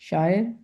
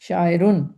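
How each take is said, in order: First: The word stops plainly on its final consonant. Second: The word ends with an added -un sound. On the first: This is how it is said alone in speech. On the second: The full written form with nunation is shown.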